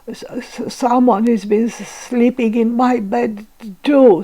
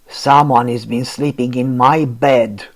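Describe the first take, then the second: First: It is stuttered in Baby Bear's voice. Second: It is roared loudly in Papa Bear's voice.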